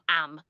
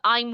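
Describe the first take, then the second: First: The vowel is a flat 'ah', like 'am'. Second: The vowel is a clear 'eye' glide. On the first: It is the natural northern English way. "if I just say it normally, it would come through more like an ah sound" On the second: It is the careful phone voice. "I will say or try to say I um when I am saying I"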